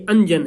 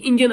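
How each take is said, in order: First: انجن as anjan, open a first; correct pronunciation. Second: انجن as injan, like English engine; English engine pronunciation. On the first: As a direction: say انجن with a, anjan, meaning kohl. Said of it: "نہ کہ انجن". (انجن کو اَنجن پڑھیں، زبر کے ساتھ) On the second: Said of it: "یہ انگریزی انجن مت". (انجن کو انگریزی اِنجن کی طرح) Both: Shown as a demonstration.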